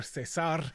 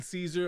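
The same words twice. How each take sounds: First: Cesar as seh-SAR; Spanish pronunciation. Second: Caesar as SEE-zer; English pronunciation. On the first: Host offering the other option, Cesar in Spanish pronunciation. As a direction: stress the last syllable of Cesar, Spanish style. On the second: Host offering options to co-host, Caesar in English pronunciation. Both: Shown as a demonstration. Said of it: "how you like to pronounce it".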